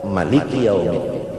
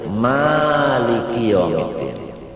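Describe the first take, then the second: First: The first vowel of maliki is short. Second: The first vowel of maliki is long. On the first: This is the Ibn Kathir reading. "qiraat Ibnu Katsir maliki yaumiddin kada ba'alif" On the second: This is the Hafs reading. "ini qiraat Hafs sa'alif"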